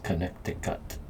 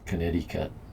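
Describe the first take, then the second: First: It is said with a Native American-sounding pronunciation. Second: It is said with the everyday American pronunciation. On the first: The speaker calls it right. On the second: The speaker calls it wrong. "It's not Connecticut like we all Connecticut"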